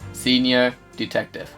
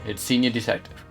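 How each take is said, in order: First: It is said slowly and deliberately. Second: It is said at normal speed.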